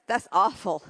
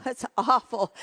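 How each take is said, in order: First: Said in the usual way. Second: Said through a laugh; amused disbelief while laughing; chuckling at the awful singing. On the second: Real, not acted.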